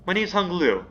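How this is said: It is said in a put-on character voice.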